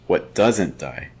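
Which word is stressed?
doesn't. The stress is on "doesn't".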